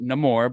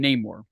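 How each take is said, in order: First: The name is said with a Hispanic accent. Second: The name is said with an English accent. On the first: This is how the character says his own name. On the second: This is how people said it before seeing the film. "Before seeing the movie, they called him Namor"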